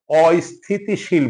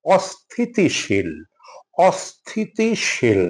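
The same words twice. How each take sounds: First: অস্থিতিশীল with an extra i, "ɔ-isthitishil"; অস্থিতিশীল begun as "o-is"; common mispronunciation. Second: অস্থিতিশীল slowly, starting straight "ɔs-thi"; measured অস্থিতিশীল with no i before স; slow, careful "ɔs-thi-ti-shil" for অস্থিতিশীল; correct pronunciation. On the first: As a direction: slip an i before স in অস্থিতিশীল. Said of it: "আমরা প্রায়শই ভুল করে". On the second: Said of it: "এটা অস্থিতিশীল না". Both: Shown as a demonstration.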